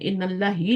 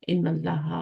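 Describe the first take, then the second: First: The phrase ends with an 'ee' vowel. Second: The phrase ends with an 'ah' vowel. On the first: The speaker calls it wrong. "इन अल्लाह ही नहीं होगा" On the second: The speaker calls it right. "क्या होगा, इन अल्लाह हा होगा।"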